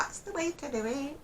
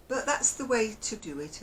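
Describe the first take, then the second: First: High-pitched puppet catchphrase voice; Punch. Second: Said in the usual way. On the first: Acted. Puppet show catchphrase to the viewers, high put-on voice. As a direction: squeak it like a seaside puppet. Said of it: "I sounded like Punch then, didn't I?". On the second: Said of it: "I sounded like Punch then".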